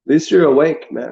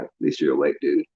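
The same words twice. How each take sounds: First: Bright sarcastic praise, slightly raised; mock congratulation. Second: Much lower, softer sarcastic aside; mock deep voice. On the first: Mocking the awakened as doom comes, sarcastic cheer. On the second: Mocking the awakened as doom comes, deep and soft. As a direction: drop into a deep, quiet dude voice.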